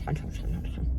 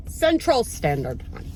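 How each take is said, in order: First: Raspy voiceless growl, much softer; the Grinch. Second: Said in the usual way. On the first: Pretend. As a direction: rasp it out under the breath like a grouchy creature. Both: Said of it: "that's my Grinch impression".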